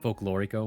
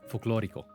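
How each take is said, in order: First: The word is said with an English accent. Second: The word is said with a Spanish accent.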